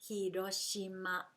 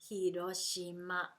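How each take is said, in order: The two takes are said the same way.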